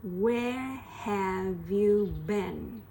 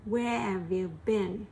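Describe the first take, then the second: First: Very slow "Where have you been"; slow drill. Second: Said in the usual way. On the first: Shown as a demonstration. Teacher drilling the question slowly. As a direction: stretch each word.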